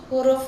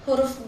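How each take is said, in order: No difference in how they are said.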